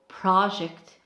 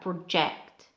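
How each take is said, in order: First: The stress is on the first syllable. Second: The stress is on the second syllable. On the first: It is used as a noun. "for noun we have project" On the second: It is used as a verb. "for verb we have project"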